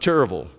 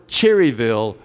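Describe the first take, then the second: First: It is said in a broad local rural pronunciation. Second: It is said in a neutral, careful pronunciation. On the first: It reveals that the speaker is from the local county. The speaker calls it wrong. "you didn't want everybody to know you were from Gaston County" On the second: The speaker's local origin stays hidden. The speaker calls it right. "I had to always be careful to say the word Cherryville"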